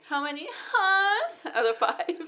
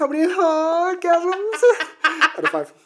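First: Laughing. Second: Giggling through the question; laughing. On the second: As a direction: laugh as you ask it. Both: Real, not acted. Joking rating question while laughing.

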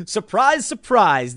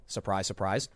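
First: Mock amazement, rising high then dropping; a sing-song, sarcastic "Surprise, surprise" that starts high and falls; fake-surprised "Surprise, surprise" with a rise then a fall. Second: Much lower and softer, dry "Surprise, surprise"; flat, sarcastic "Surprise, surprise", low and soft; deadpan sarcasm. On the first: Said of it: "sarcastic remark on predictable news". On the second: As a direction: mutter "Surprise, surprise" low under the breath. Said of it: "dry aside on predictable news". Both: Real, not acted.

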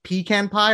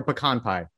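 First: "pecan" said PEE-can, short a; "pecan" with a long ee first, then "can". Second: "pecan" said puh-KAHN, stress on the second syllable; "pecan" with a soft puh, then open "kahn". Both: Shown as a demonstration. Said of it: "this is a big debate".

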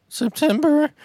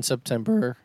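First: "September" squeaked very high; mimicking voice crack. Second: "September" cracking upward at the end. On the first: Shown as a demonstration. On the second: Real, not acted. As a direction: let the voice break on "September". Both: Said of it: "My voice just cracked".

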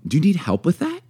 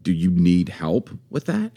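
First: Higher-pitched, easy offer of help; helpful, light question; friendly offer. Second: Slow, loaded offer of help; slow, condescending offer; pointed question. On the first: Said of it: "just how you say it". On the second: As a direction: draw the question out doubtfully. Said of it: "just how you say it changes". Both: Shown as a demonstration.

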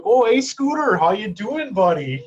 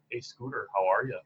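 First: Loud, high, hammed-up Yooper greeting; Yooper accent. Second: Deadpan North Dakota greeting; understated North Dakota accent, no bounce at all. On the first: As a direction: call out in a big, exaggerated Yooper accent. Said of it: "a Yooper accent is like". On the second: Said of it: "North Dakota accent is more like". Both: Shown as a demonstration.

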